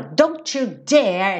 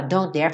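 First: Slow threat with a long, heavy DARE; acted fury, drag out "dare"; menacing, drawn-out warning; really angry. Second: Said in the usual way. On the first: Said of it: "Bem bravo". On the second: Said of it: "Ao invés de você falar".

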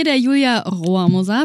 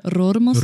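First: Said in the usual way. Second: Rohrmoser with a rolled R, imitating Achim. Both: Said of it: "oder wie Achim das sagen würde".

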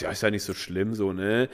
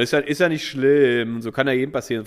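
First: Low, soft aside, it's no big deal; mild hushed consolation; quiet reassurance. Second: Raised consoling voice to the barmaid; a bit louder. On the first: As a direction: murmur it just to her. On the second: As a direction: say it so she can hear. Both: Retold or imitated. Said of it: "ein bisschen lauter so zu ihr".

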